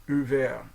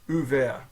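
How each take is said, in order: No difference in how they are said.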